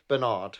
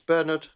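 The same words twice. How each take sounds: First: The name is said the American way. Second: The name is said the non-American way. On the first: The speaker calls it wrong. "Americans say the word Bernard wrong" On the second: The speaker calls it right. "It's Bernard"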